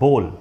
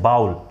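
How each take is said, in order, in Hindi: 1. स्वर की ध्वनि 'oh' जैसी है। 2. स्वर की ध्वनि 'ow' जैसी है। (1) "इसका सही उच्चारण होता है बोल" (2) "लोग बोलते हैं बाउल"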